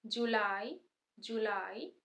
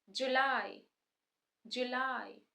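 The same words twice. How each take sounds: First: जुलाई with long "oo", joo-LIE; British pronunciation. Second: जुलाई with short "u", juh-LIE; American pronunciation. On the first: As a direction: lengthen the first vowel of जुलाई. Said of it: "British में ऊ sound long है". (जुलाई में long ऊ, British) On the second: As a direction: clip the first vowel of जुलाई short. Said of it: "American में short है". (जुलाई में short उ, American) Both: Shown as a demonstration.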